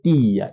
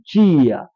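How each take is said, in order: First: It is said with an Angolan accent. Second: It is said with a Brazilian accent.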